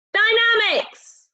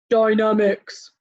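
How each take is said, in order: First: Dynamics much higher and slow; high stretched Dynamics. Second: Dynamics stretched out slowly. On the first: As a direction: lift Dynamics up high slowly. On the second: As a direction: drag out Dynamics. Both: Shown as a demonstration. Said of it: "Can you say dynamics?".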